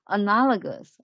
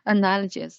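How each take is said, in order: First: The g sounds hard, like in go. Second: The g sounds soft, like a j. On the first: The speaker calls it right. "pay attention to G. The pronounce the pronunciation of G is like G" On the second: The speaker calls it wrong. "I made a mistake and pronounced this word analogy"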